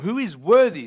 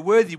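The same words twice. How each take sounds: First: Worthy landed loud with a falling tune; stress on worthy. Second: Worthy hit loud and falling; worthy set apart, loud and weighty; stress on worthy. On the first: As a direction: punch worthy in the question. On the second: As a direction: lean hard on the word worthy. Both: Shown as a demonstration. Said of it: "There's a key word there".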